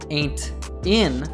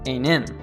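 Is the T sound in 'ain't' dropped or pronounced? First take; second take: pronounced; dropped. First: The T is pronounced and the words are separate. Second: The T is dropped and the words are linked. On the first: "instead of saying ain't in" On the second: "he says ain't in"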